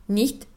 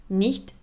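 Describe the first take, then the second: No difference in how they are said.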